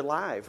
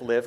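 First: Long i in "live"; "live" rhyming with five. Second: Short vowel in "live"; "live" rhyming with give. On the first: Teacher contrasts two readings, "live" as lyve. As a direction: say "live" as in live streaming. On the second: Teacher contrasts two readings, "live" as liv. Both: Shown as a demonstration. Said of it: "We're live streaming right now".

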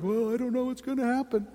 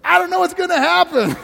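First: Uncertain shrug. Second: Much higher, loud, thrilled "I don't know what's gonna happen"; excited. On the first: Retold or imitated. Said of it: "some people are like". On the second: Acted. Pastor flipping worry into joy, high and thrilled. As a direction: say it like a wonderful surprise. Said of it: "change it around and go".

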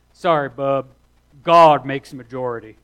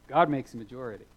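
First: Loud backwoods Alabama drawl. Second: Said in the usual way. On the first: Retold or imitated. Quoting a classmate's retort to the preacher, loud Alabama drawl. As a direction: boom it out in a broad Alabama accent. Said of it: "my best Alabama drawl".

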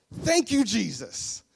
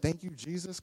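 First: Loud, high exclamation of praise; jubilant thanks. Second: Questioning, less forceful quote; incredulous echo. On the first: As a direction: burst out in gratitude, then fall. Pastor's jubilant answer again. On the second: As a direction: throw it back as a question. Woman quotes pastor back in disbelief. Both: Acted.

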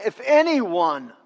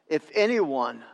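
First: "anyone" stretched out and raised; stress on ANYONE. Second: Said in the usual way. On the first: Real, not acted. Preacher pressing the congregation to listen, drawn-out stress on "anyone". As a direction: lean hard and slowly on "anyone". Repeats verse to make church listen.

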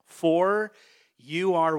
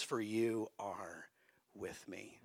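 First: Loud call out. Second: Slow, soft and whispered at the end; hushed whisper. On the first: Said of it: "Say it louder". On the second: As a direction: lean in and whisper the promise. Softly repeating the verse. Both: Shown as a demonstration.

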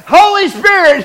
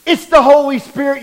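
First: High, loud "Holy" cut through with laughter; laughing shout. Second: Loud, rising shout on "Holy Spirit"; exclaiming the Holy Spirit. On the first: Preacher repeating the name to the congregation, laughing shout. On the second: Preacher proclaiming "It's the Holy Spirit" to the congregation, loud shout. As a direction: call it out to the whole church. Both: Real, not acted.

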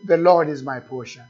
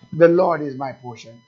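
First: Said in the usual way. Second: The Lord is my portion given full weight, louder; weighty, emphatic read. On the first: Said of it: "If you just read the scripture like that". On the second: Shown as a demonstration. Pastor lingers on the scripture for the congregation, emphatic. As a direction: dwell on "The Lord is my portion" instead of skimming it. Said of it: "you go over it in a second".

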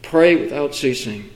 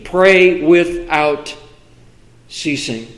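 First: "Pray without ceasing" repeated softer and lower; softer echo. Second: "Pray without ceasing" drawn out slowly, dropping away at the end; slow quoted verse. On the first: Preacher repeating the verse to himself, softer. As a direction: echo the verse back quietly. Repeated softly after pause. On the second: Preacher quoting Thessalonians to the church, slow and deliberate. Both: Acted.

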